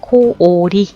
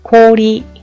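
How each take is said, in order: First: The o is said as two separate vowels. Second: The o is one drawn-out long vowel. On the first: The speaker calls it wrong. "오오이라고 하지 않고" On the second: The speaker calls it right. "장음 발음으로 오 끌어준다"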